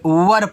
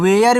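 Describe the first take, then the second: First: The vowel is a short 'ur' sound. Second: The vowel is a long 'air' sound. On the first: "कोई style में पढ़ता है तो इसको वर पढ़ते हैं" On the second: "कोई कोई देखो वेयर भी पढ़ता है"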